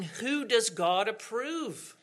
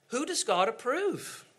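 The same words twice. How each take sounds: First: Slow, weighty question on does; slow rhetorical question. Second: Repeated higher question. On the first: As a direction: let the question sink in slowly. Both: Shown as a demonstration.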